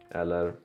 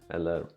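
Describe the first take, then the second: No difference in how they are said.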